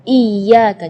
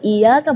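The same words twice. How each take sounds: First: The y sound is doubled and held. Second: The y sound is single and short. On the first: The speaker calls it right. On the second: The speaker calls it wrong. "tidak ada tasydidnya"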